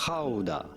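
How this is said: It is said the genuine Dutch way.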